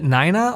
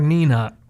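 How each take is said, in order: First: The first vowel sounds like 'eye'. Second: The first vowel sounds like 'ee'. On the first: "nine dash A H" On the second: "N E E dash N U H"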